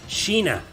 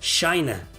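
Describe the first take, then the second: First: The name is pronounced the Spanish way. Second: The name is pronounced the English way. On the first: "in Spanish, she's her name is pronounced as" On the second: "but in English, she is pronounced as"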